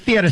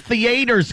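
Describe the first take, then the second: First: Theater is said with a standard accent. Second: Theater is said with a Baltimore accent. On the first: The speaker calls it right. "Say it right" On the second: The speaker calls it wrong.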